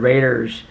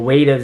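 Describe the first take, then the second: First: The r sound is pronounced normally. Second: The r sound is replaced by a w. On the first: "instead of Raiders" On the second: "New Yorkers have that stereotype with the W's"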